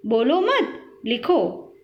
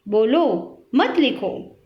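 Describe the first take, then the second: First: "बोलो मत" joined and rising, then "लिखो" alone; pause after मत. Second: "बोलो" alone, then "मत लिखो" together; pause after बोलो. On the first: Teacher showing changed meaning, pause after "बोलो मत". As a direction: run "मत" onto "बोलो", then break. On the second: Teacher showing changed meaning, pause before "मत लिखो". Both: Shown as a demonstration. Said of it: "कुछ चिन्हों के प्रयोग से उनका अर्थ बदल गया".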